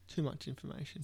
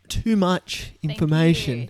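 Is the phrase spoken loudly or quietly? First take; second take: quietly; loudly. First: The phrase is spoken at a quieter volume. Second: The phrase is spoken at a louder volume. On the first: The speaker calls it wrong. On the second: The speaker calls it right.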